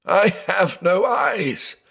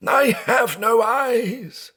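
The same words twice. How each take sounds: First: High, slow, wailing lament; sobbing cry. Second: Even higher, slow wailing with stress on I; sobbing cry, higher. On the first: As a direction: wail it out in despair. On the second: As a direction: break further into the wail. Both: Acted.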